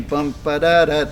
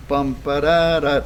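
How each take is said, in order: First: "bum, ba, da, da" with the final "da" slightly early; hurried last note. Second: "bum, ba, da, da" with the final "da" held back a hair; delayed last note. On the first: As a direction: rush into the last "da" of the chanted rhythm. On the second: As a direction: chant it, placing the last "da" slightly late. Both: Shown as a demonstration. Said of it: "delay the last note just a hair".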